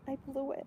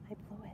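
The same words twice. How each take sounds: First: It is said at normal loudness. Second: It is said softly and quietly.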